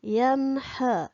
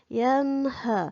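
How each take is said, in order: The two takes are said the same way.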